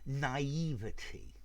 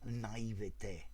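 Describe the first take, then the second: First: The word is said with an English pronunciation. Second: The word is said with a French pronunciation. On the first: "I think you're better off with naivety" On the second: "the French pronunciation"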